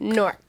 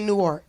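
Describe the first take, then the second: First: The word is squeezed into one syllable. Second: The word is said with two full syllables. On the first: The speaker calls it right. "You say" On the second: The speaker calls it wrong. "You don't say Newark"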